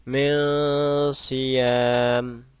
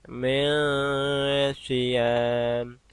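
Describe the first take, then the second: The two takes are said the same way.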